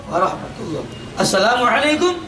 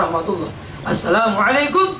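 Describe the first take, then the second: The two takes are said the same way.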